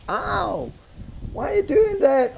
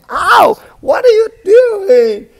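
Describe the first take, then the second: First: High, pained ow and protest; hurt complaint. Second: High, loud outraged ow; angry yell. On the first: Struck man complains to the man who hit him, high and pained. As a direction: yelp like the one who just got hit. Victim hit a second time. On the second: Struck man shouts at his attacker, high and loud. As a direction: yell at the man who keeps hitting you. Victim hit a third time. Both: Pretend.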